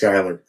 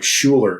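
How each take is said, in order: First: The name is said as Skyler. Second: The name is said as Schuler. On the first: The name is said the way its owner says it. The speaker calls it right. "It's pronounced Skyler" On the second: The name is read straight from its spelling. The speaker calls it wrong. "I just pronounced it as I read it"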